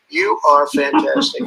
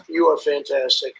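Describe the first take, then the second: First: "you are fantastic" lifted much higher and slower, leaning on "you"; little accent. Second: Said in the usual way. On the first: Shown as a demonstration. Praising Victor with a little accent, high and slow on "you". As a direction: give "you" a big high lift and draw out "are fantastic" slowly. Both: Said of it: "When I put the little, the little accent on it".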